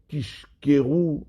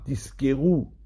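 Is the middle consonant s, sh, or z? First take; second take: sh; s. First: The middle consonant is an sh. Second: The middle consonant is an s. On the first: You will tell lies. "afin qu'on n'entende pas ... du mot sheker" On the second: You will receive a reward. "du mot Sahara"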